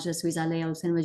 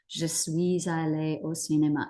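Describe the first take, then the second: First: It is said very fast, rushed. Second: It is said at an ordinary pace.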